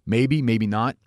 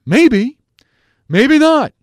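First: Said in the usual way. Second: High loud sing-song maybe not, much higher and louder; mock a colleague's squeaky maybe; imitating Bradford. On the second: Host mimics Bradford to his listeners, high mock squeak. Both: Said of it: "I sound like Bradford".

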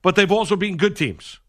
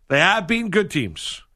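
First: Said in the usual way. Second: Slow, insistent "They have been good teams", leaning on "have"; emphatic insistence. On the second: Real, not acted. Co-host insisting on the Yankees' record, stress on "have".

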